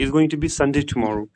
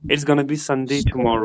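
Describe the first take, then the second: First: 'Going to' is said in full. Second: 'Going to' is reduced to 'gonna'. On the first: "it's गोइंग टू be" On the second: "गोना be का हम इस्तेमाल कर सकते हैं"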